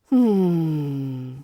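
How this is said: It is flat, monotonous and drawn out. The listener is bored or uninterested. "in a monotonous or drawn-out way"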